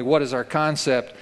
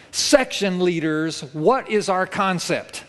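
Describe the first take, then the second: First: Said in the usual way. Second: Slow, raised drill-sergeant call; barked command. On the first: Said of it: "he asks them very firmly". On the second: Retold or imitated. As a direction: bark it out like a boot camp sergeant. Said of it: "he barks out".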